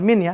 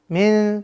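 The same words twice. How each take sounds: First: The final n is pronounced clearly and fully. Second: The final n is obscured and nasalized. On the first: The speaker calls it wrong. "Bukan min ya" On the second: The speaker calls it right. "Samarkan nunnya"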